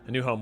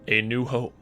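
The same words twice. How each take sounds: First: It is said in a plain, ordinary voice. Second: It is said in a put-on narrator voice.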